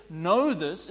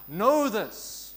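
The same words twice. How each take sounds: First: Know said firmly, falling, with weight; earnest. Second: Know shouted out loud and falling. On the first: Preacher showing the congregation an earnest Know this. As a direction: lean into Know like a solemn warning. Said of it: "it is a tone of earnestness". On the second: Preacher showing how Know this can be shouted. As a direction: call out Know this with full force. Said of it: "We can shout it". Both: Shown as a demonstration.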